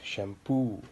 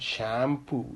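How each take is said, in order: First: The last syllable is stressed. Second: The last syllable is not stressed. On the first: The speaker calls it right. "these E E and O O are pronounced more" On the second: The speaker calls it wrong. "it's not shampoo"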